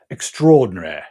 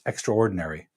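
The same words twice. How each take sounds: First: It is said in a British accent. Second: It is said in a Canadian accent. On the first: "if you prefer the British accent" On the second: "in Canada, we would pronounce this"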